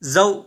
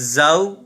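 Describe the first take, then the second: First: The word is clipped short with a jerk. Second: The word is said smoothly at normal length. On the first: The speaker calls it wrong. "हमने इसे बिल्कुल जल्दी से भी नहीं पढ़ा" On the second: The speaker calls it right. "नरमी के साथ बगैर खींचे बगैर झटका दिए इसे मारूफ तरीके से हमने इसे पढ़ा"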